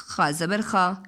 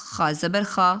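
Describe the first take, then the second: No difference in how they are said.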